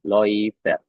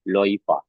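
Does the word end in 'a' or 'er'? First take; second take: er; a. First: The word ends with an 'er' sound. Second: The word ends with an 'a' sound.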